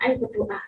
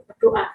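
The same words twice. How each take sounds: First: A quiet invitation to pray; soft urging. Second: "berdoa" repeated high and louder; insistent repeat. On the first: Mother gently asking son to pray, soft. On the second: Mother urging son again to pray, insistent. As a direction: press the word "berdoa" urgently. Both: Retold or imitated. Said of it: "saya bilang gitu".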